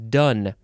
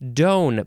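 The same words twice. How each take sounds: First: Its vowel differs from the vowel in donator. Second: Its vowel matches the vowel in donator. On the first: The speaker calls it right. "but no, it is done" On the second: The speaker calls it wrong. "if you keep on using the pronunciation that we've had here, donative, donator ... you might want to pronounce it done"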